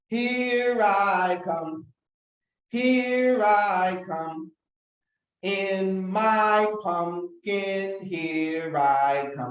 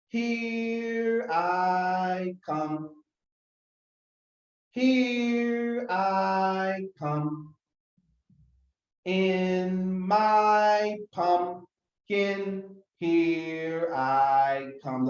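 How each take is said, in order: First: It is said a little faster. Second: It is said slowly.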